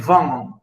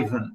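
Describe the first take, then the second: First: The name is said with a Russian pronunciation. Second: The name is said with an English pronunciation. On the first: "in Russian they say Ivan" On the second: "English people say Ivan"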